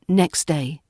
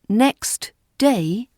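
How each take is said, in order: First: The T at the end of next is dropped. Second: The T at the end of next is heard. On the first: "what we say in natural R P speech" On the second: "is careful pronunciation"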